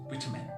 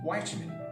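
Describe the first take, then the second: First: It is said in a British accent. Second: It is said in an American accent. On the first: "A British accent, uh, the actual pronunciation of the word is vitamin" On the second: "It becomes an American, it becomes vitamin"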